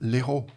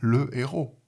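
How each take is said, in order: First: The article's vowel is dropped and joined on. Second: The article keeps its vowel before the word. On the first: The speaker calls it wrong. "Vous n'allez pas dire l'héros" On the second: The speaker calls it right. "vous allez dire le héros"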